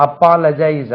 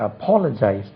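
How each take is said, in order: First: Mispronounced apologize, shown as the wrong way; wrong pronunciation demo. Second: Careful teacher's apologize, stress on the second syllable; correct pronunciation. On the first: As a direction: apologize said the wrong way, with the vowels flattened to pa-la-. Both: Shown as a demonstration. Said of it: "உச்சரிப்பு கவனிங்க".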